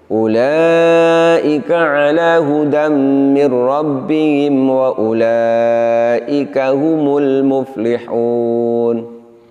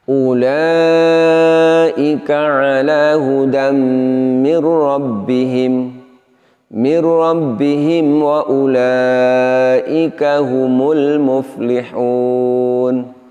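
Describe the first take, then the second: First: It is read straight through without stopping. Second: It stops after 'mir rabbihim', then repeats it. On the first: The meaning of the verse stays complete. The speaker calls it right. "seharusnya dibaca utuh dari awal hingga akhir" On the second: The meaning of the verse is left incomplete. The speaker calls it wrong. "Apabila kita berhenti semisal pada lafaz mir rabbihim"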